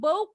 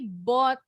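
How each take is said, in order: First: The vowel is a gliding 'oh' sound. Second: The vowel is a short open 'aw' sound. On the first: The speaker calls it wrong. "Bacanya bukan boat ya" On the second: The speaker calls it right. "Tapi bot"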